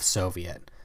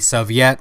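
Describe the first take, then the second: First: The word is said with an American English pronunciation. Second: The word is said with a Russian pronunciation. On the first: "standard American English pronunciation of Soviet" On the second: "the proper pronunciation of Soviet is actually Soviet"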